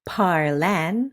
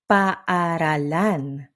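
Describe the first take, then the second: First: Vowels are dropped and the word is shortened. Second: Every vowel is pronounced, including both a's. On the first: The speaker calls it wrong. "not parlan" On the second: The speaker calls it right. "It's paaralan"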